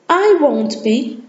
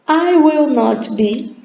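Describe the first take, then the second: First: The words are squeezed together into a contraction. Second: Each word is said separately and in full. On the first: "Agora a pronúncia da forma contraída" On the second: "Podemos usar a forma por extenso, colocando o not"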